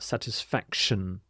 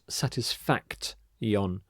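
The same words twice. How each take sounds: First: The 'ti' in the ending is said with 'sh'. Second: The 'ti' in the ending is said with 't'. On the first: The speaker calls it right. "this T I makes the sh sound" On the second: The speaker calls it wrong. "So not satisfaction"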